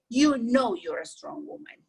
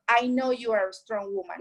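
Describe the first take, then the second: First: You stressed, the listener's own knowing; "You know" leans on You. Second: I stressed, the speaker's own knowing; "I know" leans on I. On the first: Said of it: "No, he said". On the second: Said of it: "he don't say". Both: Retold or imitated.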